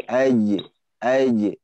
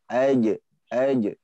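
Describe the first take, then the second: The two takes are said the same way.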